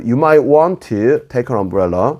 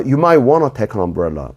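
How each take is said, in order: First: Said carefully and slowly, with "want to" in full. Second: Said quickly, with "want to" reduced to "wanna". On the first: "또박또박 말할 때는" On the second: "빨리 말할 때는"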